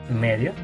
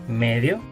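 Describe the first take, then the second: Both takes have the same delivery.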